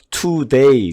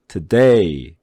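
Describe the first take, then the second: First: The stress is on the first syllable. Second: The stress is on the second syllable. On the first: The speaker calls it wrong. "우리나라 사람들 이거 발음할 때 today 그러죠" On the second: The speaker calls it right. "day에다 액센트를 집어넣으면"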